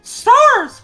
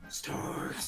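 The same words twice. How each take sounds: First: It is said in a put-on character voice. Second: It is said in a normal voice.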